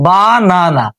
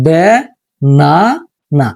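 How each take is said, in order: First: বা না না with flat open a vowels, each syllable said separately; wrong reading of the word. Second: বে না না with e first and then two open a syllables, spaced apart; the right reading বে না না, syllable by syllable; correct syllable reading. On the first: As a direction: sound out বা না না syllable by syllable. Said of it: "বা না না নামে কোনো শব্দ নাই". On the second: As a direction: sound out বে না না slowly with pauses. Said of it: "তাহলে সেটা হতে পারে". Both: Shown as a demonstration.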